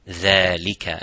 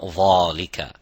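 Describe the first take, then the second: First: It starts with a light, thin dh sound. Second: It starts with a heavy, full-mouth dh sound. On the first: The speaker calls it right. "empty mouth" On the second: The speaker calls it wrong.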